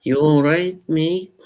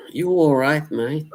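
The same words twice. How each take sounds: First: High, cheery Liverpool greeting; a bright Scouse "all right, mate"; Liverpool accent. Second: High, cheery British greeting; British accent. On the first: Streamer redoing his Liverpool accent for chat. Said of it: "The Liverpool accent, I did". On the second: Streamer greeting chat in a British accent. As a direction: sing out a cheery British "all right, mate". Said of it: "I like doing those accents". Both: Pretend.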